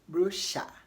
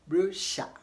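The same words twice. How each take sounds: The two takes are said the same way.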